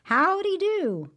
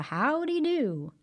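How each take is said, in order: First: High, loud, slow howdy; shouted greeting. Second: High, slow friendly howdy; friendly greeting. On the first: Brer Rabbit shouting a greeting to the tar baby, high and loud. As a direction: call it out across the road. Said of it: "he shouted out to that tar baby". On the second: Narrator voicing Brer Rabbit greeting folks on the road, friendly and high. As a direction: greet them like a cheerful rabbit. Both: A narrator's reading.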